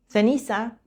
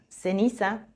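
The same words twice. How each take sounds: First: The c sounds like English th. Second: The c sounds like an s. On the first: This is the usage in most of Spain. "se pronuncia C, C, en la mayor parte de España" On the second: This is the usage in southern Spain and Latin America.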